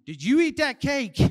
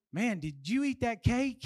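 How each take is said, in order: First: Louder mock scolding, falling at the end; accusing mom. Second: Understated excited question, rising at the end; mild excitement. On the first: Mom turns on the kid with the same question, loud accusation. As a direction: imitate a mom demanding a confession. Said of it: "my mom turns around and uses the same question". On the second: Kid excited with his sister, mildly amazed question. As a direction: ask it with lightly impressed wonder. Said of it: "I get excited with my sister". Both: Shown as a demonstration.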